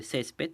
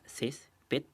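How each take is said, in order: First: Said in the usual way. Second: "césped" split into two beats, cés, ped; syllable by syllable. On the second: Shown as a demonstration. Teacher splitting a word for pupils, "césped" syllable by syllable. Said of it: "que se separa en dos sílabas".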